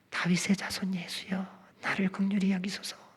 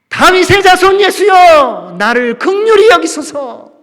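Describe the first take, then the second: First: It is said quietly, in a small voice. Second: It is shouted even louder than before.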